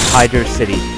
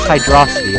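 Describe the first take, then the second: First: It is said as two separate words. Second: It is said as one blended word. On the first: The speaker calls it right. "That is how it is actually pronounced" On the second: The speaker calls it wrong. "It is not pronounced Hydrocity like some people claim"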